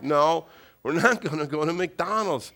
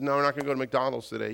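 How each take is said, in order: First: Measured, firmer no from dad; firm refusal. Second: Quick, offhand no from dad; fast, matter-of-fact refusal; brisk refusal. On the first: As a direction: lay down the law to a pestering child. Father's firmer second refusal. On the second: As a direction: brush the request off rapidly. Father's first quick refusal. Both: Retold or imitated.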